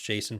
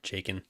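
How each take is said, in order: First: The middle consonant is a soft S sound. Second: The middle consonant is a hard K sound. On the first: The speaker calls it right. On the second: The speaker calls it wrong. "Twelve year old me popping out, not knowing how to pronounce Jason properly"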